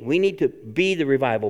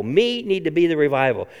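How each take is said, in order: First: Said in the usual way. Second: "Me" pushed to the front and stressed. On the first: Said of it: "Bad English". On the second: Shown as a demonstration. Pastor twisting grammar to stress "Me". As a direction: lean on "Me" as a playful grammar twist. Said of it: "Bad English, but hey, it works".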